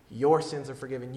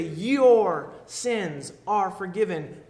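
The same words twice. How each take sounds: First: Said in the usual way. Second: Every word drawn out slowly, YOUR leaned on; slow solemn quote. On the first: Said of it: "that phrase". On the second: Acted. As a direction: give each word weight, slowly. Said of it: "you've heard him say".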